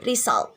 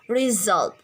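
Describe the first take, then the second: First: The middle consonant is an s sound. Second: The middle consonant is a z sound. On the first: The speaker calls it wrong. "students uh, pronounce this result, and that is wrong" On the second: The speaker calls it right. "in a pronunciation right in English like result"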